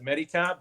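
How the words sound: The surname is said with English pronunciation. This is how people locally say it. "over here they pronounce it"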